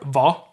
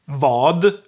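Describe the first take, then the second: First: The final d sound is left out. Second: The final d sound is pronounced.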